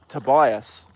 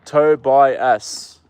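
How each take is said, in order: First: Said in the usual way. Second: "Tobias" stretched long and louder, like "two beers"; drawn-out Tobias. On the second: Shown as a demonstration. Reading the viewer's name like two beers, drawn out. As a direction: lean into "Tobias" as "Toe-bias", slow and full. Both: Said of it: "It sounds like two beers".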